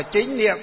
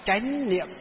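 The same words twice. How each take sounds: First: Chính said with the vowel i and a rising tone; northern reading Chính. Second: Chánh said with an open a vowel and a rising tone; southern reading Chánh. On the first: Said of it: "Miền, à, Bắc đọc là Chính Niệm". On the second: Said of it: "miền Nam đọc là gì?". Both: Shown as a demonstration.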